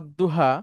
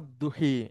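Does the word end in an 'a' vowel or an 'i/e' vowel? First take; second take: a vowel; i/e vowel. First: The final vowel is an open 'a' sound. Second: The final vowel leans toward an 'i/e' sound. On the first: This is the reading usually learned at home. "মনে করেন আপনি শিখেছেন" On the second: This is how it is read in other countries. "দেখবেন ওইখানে যায় বলে"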